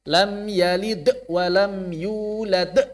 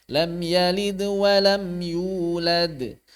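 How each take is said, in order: First: The final bounces are forceful and jerky. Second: The final bounces are soft and light. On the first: The speaker calls it wrong. "jangan terhentak" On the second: The speaker calls it right. "ringan saja qalqalah itu, enggak usah kuat-kuat"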